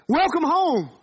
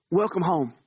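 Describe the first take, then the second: First: Bright, raised proclamation of Welcome home; joyful welcome. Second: Said in the usual way. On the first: Acted. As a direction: Welcome home lifted high and louder, ringing out. Jesus welcoming the sinner.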